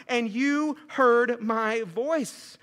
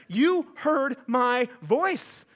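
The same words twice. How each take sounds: First: Very slow, drawn-out reading; slow emphasis. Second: Very slow, drawn-out words; slow emphasis. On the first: Reading Jonah's prayer to the church, slow and drawn out. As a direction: let each word land slowly. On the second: Stressing Jonah's words to the church, slow and drawn out. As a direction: linger on each word. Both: Acted.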